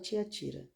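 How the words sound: It is said with a São Paulo accent.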